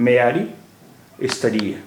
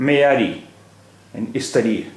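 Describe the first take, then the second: Both takes have the same delivery.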